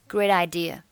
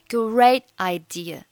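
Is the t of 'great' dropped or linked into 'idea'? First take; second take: linked; dropped. First: The t of great joins onto idea. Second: The t at the end of great is silent. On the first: "或者是选择连读成great idea" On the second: "你可以选择great 末尾的t 不发音"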